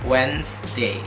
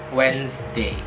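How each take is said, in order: No difference in how they are said.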